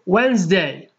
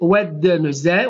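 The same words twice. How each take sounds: First: The middle d sound is silent. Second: The middle d sound is pronounced. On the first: The speaker calls it right. "ولكن نقول Wednesday" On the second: The speaker calls it wrong. "لا نقول Wednesday"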